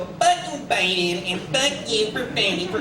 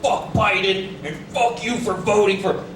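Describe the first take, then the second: First: It is said in a whiny, nasal voice. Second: It is said in a plain, forceful voice. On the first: The message sounds petty and complaining. "put a little whine in the voice and it makes it all sound bitchy" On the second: The message is meant to sound tough. "That's how they want you to read it"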